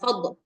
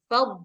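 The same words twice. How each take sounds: First: The final consonant is released with a bounce. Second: The final consonant is held without a bounce. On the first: The speaker calls it wrong. "jangan fad" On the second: The speaker calls it right. "tahan buatnya, jangan dikol-kolahin"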